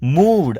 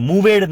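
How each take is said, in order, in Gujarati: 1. શબ્દનો અંત સાદા 'd' અવાજથી થાય છે. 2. શબ્દનો અંત વધારાના 'ed' ઉચ્ચારથી થાય છે. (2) "મૂવેડ નહીં કહેતા"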